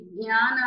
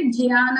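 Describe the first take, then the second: First: "జ్ఞాన" with a g-ny onset, "gnyaana"; "జ్ఞాన" begun with g and palatal ny; Telugu pronunciation. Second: "జ్ఞాన" with a j-y onset, "jyaana"; "జ్ఞాన" begun with j, not g; Sanskrit pronunciation. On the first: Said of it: "జ్ఞాన అంటే Telugu". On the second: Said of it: "జ్ఞాన అంటే సంస్కృతం అండి". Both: Shown as a demonstration.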